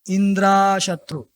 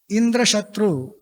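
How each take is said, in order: First: The a-vowel is held a little longer. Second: The a-vowel is said short. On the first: Someone whom Indra will kill. The speaker calls it wrong. "Little bit longer A" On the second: An enemy more powerful than Indra. The speaker calls it right. "Instead of chanting Indra Shatru"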